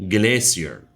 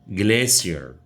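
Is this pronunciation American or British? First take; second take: British; British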